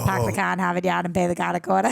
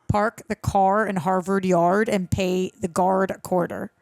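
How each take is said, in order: First: It is said in a heavy Boston accent. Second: It is said in a plain, general accent.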